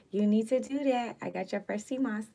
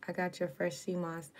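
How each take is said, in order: First: Excited. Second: Said in the usual way. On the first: Real, not acted.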